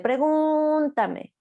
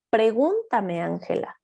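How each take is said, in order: First: Very slow and high, stretched syllables; high, slow echolalic repetition; drawn-out echo. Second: Said in the usual way. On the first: Acted. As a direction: drag it out like a child echoing. Child's echolalia acted out.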